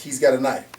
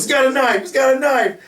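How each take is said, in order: First: Said in the usual way. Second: Much higher, louder mock scream; panicked screaming. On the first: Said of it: "And it's all he says". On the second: Bystander with camera screaming at the floor, mock panicked scream. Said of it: "and goes".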